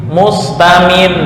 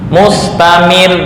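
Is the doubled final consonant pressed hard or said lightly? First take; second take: pressed; pressed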